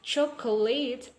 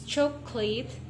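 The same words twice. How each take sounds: First: All three syllables are sounded, including the middle vowel. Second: The middle vowel is dropped, leaving two syllables. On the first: "this is actually chocolate" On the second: "we omit the o here from the chocolate. It will be pronounced as chocolate"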